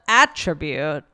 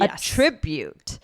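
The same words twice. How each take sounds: First: The stress is on the first syllable. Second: The stress is on the second syllable. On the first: It is the noun form. "instead of attribute" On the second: It is the verb form. "now the pronunciation changes and the stress is on the second syllable"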